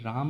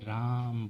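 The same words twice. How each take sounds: First: The word is said quickly at normal length. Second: The word is stretched out with a long vowel. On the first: "हम लोग राम नहीं बोलते" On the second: "खींच कर बोलना"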